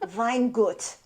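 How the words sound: It is pronounced with a German accent. "if you want to pronounce it properly in German"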